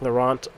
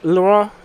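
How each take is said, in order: First: The name is said with an American pronunciation. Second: The name is said in its original pronunciation. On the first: The speaker calls it wrong. "I'm gonna pronounce it like Laurent because I am an American" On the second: The speaker calls it right. "I think is how it's actually pronounced"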